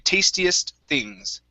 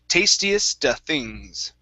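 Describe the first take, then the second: First: The words run together with no filler sound. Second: An 'uh' filler sound breaks up the words. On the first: The speaker calls it right. "we're going to say tastiest things" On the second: The speaker calls it wrong. "you added an uh sound"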